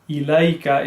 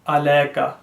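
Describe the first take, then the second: First: The first vowel is an i sound. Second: The first vowel is an a sound. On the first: The speaker calls it right. "إِلَيْكَ is correct" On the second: The speaker calls it wrong. "the wrong version is عَلَيْكَ"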